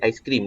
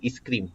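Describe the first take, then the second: First: The word begins with a gliding 'ai' sound. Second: The word begins with a plain 'ee' sound. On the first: The speaker calls it right. "dia tak jadi aiskrim" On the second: The speaker calls it wrong. "dia jadi iskrim"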